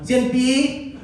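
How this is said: It imitates how the speaker's mom says it.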